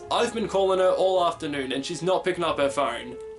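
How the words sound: It is spoken in an Australian accent. "as an Australian, I would read this line as"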